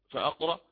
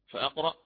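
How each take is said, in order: The two takes are said the same way.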